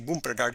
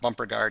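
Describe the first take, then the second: First: The name is said in an overdone, exaggerated way. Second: The name is said plainly, without exaggeration. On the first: "sometimes they really exaggerate it" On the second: "sometimes they just say it as"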